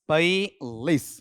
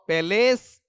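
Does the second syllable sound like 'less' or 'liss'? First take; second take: liss; less. First: The second syllable sounds like 'liss'. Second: The second syllable sounds like 'less'. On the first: The speaker calls it right. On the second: The speaker calls it wrong. "पैलेस या पैलिस?"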